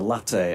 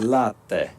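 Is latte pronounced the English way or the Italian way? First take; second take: English; Italian. First: It is pronounced the English way. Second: It is pronounced the Italian way. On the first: The speaker calls it wrong. "as I pronounce it" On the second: The speaker calls it right. "the bloke who cuts my hair is of Sicilian descent"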